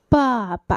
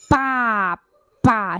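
First: The initial b is released with a puff of air. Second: The initial b is pressed hard and heavy. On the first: The speaker calls it right. "被气息瞬间的冲开" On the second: The speaker calls it wrong. "你不能爸爸，那个波就太重"

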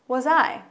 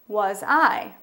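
First: It is said at a faster pace. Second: It is said at a slower pace.

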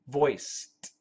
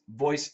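First: The final ending sounds like a T. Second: The final ending sounds like a D. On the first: "the ED sounds like a T" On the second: "now it sounds like a D"

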